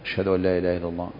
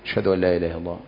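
No difference in how they are said.

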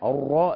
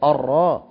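First: The R is said with rounded, moving lips. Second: The R is said with still, unrounded lips. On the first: The speaker calls it wrong. "لا غلط" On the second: The speaker calls it right. "شفتيك لا تتحرك فيها ابدا، الراء كده تمام"

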